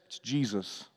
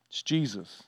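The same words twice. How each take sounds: First: Hushed reveal. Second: Soft and low again on the name; hushed reveal repeated. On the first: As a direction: drop almost to nothing on the name. Revealing the commander's identity. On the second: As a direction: repeat it quietly so it sinks in. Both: Acted.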